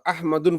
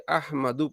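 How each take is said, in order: First: The name ends in 'un' with nunation. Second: The name ends in a plain 'u' vowel. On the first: The speaker calls it wrong. "अहमदुन नहीं पढ़ेंगे" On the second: The speaker calls it right. "अहमदु पढ़ेंगे"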